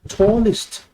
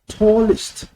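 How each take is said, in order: Both takes have the same delivery.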